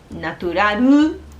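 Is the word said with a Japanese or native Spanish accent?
Japanese. It is said with a strong Japanese accent. The speaker calls it wrong. "como muy, muy de japonés"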